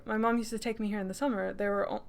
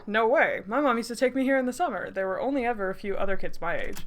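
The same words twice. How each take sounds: First: Said in the usual way. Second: A hint of a friendly guy's voice, brisker; lightly acted friendly young man; lightly voiced young man. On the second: Shown as a demonstration. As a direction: give Taylor a light character voice. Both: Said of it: "oh, I need to give him a voice".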